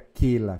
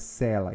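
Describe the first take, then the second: First: The word begins with a K sound. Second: The word begins with an S sound. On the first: The speaker calls it wrong. "Não fica quela" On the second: The speaker calls it right. "fica sela"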